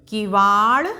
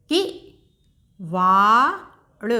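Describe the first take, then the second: First: Said in the usual way. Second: किवाड़ stretched very slowly, falling at the end; slow teacher blending; slow sounding out. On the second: Shown as a demonstration. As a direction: draw out किवाड़ for a learner. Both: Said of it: "एक बार फिर से दोहराते हैं".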